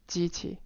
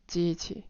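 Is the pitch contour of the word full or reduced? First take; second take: reduced; reduced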